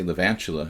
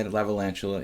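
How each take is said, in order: First: "Levantula", the shorter form without the extra "la"; easy "Levantula", sounding like tarantula; shortened name. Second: "Lavalantula", the longer form with the extra "la"; full-length name. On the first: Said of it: "It sounds like tarantula". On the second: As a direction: say "Lavalantula" with every syllable. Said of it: "too hard to say the three, four syllables". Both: Shown as a demonstration.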